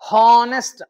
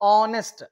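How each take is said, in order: First: The word starts with an h sound. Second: The word starts with a vowel sound. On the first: The speaker calls it wrong. "చాలా మంది హానెస్ట్ అంటారు" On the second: The speaker calls it right. "హెచ్ అనేది ఇక్కడ కూడా silent"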